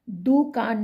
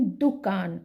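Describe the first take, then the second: First: दुकान as dookaan, long ऊ; wrong long vowel. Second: दुकान with a short उ in दु; correct short vowel. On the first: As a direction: stretch दु to दू in दुकान. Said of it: "दुकान नहीं". (दुकान में 'दू' लंबा बोलें) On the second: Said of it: "छोटे ऊ की मात्रा". (दुकान में 'दु' छोटा बोलें) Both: Shown as a demonstration.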